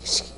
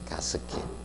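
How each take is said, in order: First: It is said the English-like way, 'ges-kit'. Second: It is said the Japanese-style way, 'gas-ket'. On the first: "원래 발음상은 게스킷인데" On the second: "일본식 발음으로 많이 씁니다"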